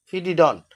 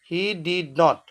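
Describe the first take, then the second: First: Did and not are joined into one contracted word. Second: Did and not are said as two full words.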